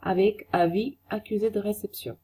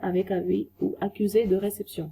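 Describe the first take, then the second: First: Avec avis accusé de réception drawn out, weight on avec; slow careful French; teacher spelling out the phrase; very slow French model. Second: Avec avis ou accusé de réception, weight on accusé; steady careful repeat; second take of the phrase; slower repeat, a bit quicker. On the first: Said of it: "slow model phrase". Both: Shown as a demonstration.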